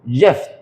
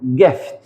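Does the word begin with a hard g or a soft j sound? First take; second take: soft j; hard g. First: It begins with a soft j sound. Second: It begins with a hard g sound. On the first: The speaker calls it wrong. "فالمفروض اقول جيفت" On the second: The speaker calls it right. "الكلمه دي هنا هتتقري جيفت"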